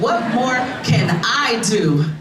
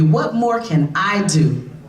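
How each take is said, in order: First: It is said with more passion and energy. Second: It is said calmly, without extra passion.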